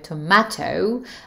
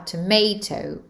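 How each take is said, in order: First: It is said in a British accent. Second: It is said in an American accent. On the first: "au Royaume-Uni, on va dire" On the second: "alors qu'aux États-Unis, ce sera"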